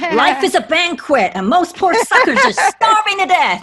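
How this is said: It is said in an attempted American accent.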